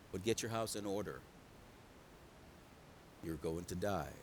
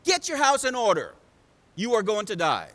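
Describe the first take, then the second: First: Very low, hushed delivery of bad news; quiet, regretful-sounding pronouncement; gentle, grave verdict. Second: Loud, emphatic verdict; forceful, declarative preacher voicing a prophet; stern prophet's pronouncement. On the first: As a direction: break it softly and solemnly. God gently gives the hard news. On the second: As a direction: proclaim it like a prophet handing down judgment. Isaiah delivers God's hard message.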